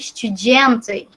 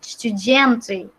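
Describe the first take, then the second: First: The d is softened, sounding close to j. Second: The same.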